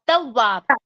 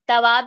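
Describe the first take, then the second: First: The w sound is held and doubled. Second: The w sound is short and single. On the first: The speaker calls it right. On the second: The speaker calls it wrong. "तवाब नहीं"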